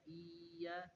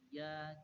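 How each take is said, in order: First: The sound is dragged out long. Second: The sound is said short and direct. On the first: The speaker calls it wrong. "dibaca iya itu diseret, tidak" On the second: The speaker calls it right. "bacanya langsung iya"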